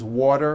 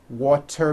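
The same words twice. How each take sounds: First: The middle consonant is a soft D sound. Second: The middle consonant is a crisp T sound.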